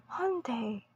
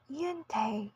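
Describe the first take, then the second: First: Hyundai as HUN-day, stress on the first syllable; American Hyundai. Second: Hyundai as HYOON-dye, stress on the first syllable; British Hyundai. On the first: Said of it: "In American English, it is". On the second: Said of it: "while in British English, it is". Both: Shown as a demonstration.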